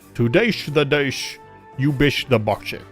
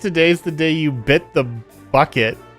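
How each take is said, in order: First: It is said in an impersonated accent, slurring s sounds. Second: It is said in a plain, ordinary voice. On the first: "picture her as like a Sean Connery type" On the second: "I think it's today's the day you bit the bucket"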